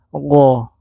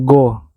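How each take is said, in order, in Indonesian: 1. Bunyi pertama dikeluarkan dari kerongkongan bagian atas. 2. Bunyi pertama adalah g keras biasa. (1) "Dia tempat keluarnya kerongkongan bagian atas" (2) "bukan go"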